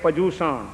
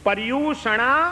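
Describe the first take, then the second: First: The second syllable sounds like 'joo'. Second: The second syllable sounds like 'ryu'. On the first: The speaker calls it wrong. "આપણે તો શબ્દને પણ કેટલા બધા અપભ્રંશમાં આવે" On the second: The speaker calls it right. "શું સાચો શબ્દ શું છે આનો ખબર છે? આ સંસ્કૃત શબ્દ છે"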